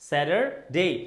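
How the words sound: The t sounds like a d. "আমেরিকানরা এটাকে বলছে স্যাটারডে"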